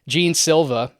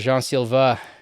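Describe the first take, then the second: First: The name is said without a French accent. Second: The name is said with a French accent.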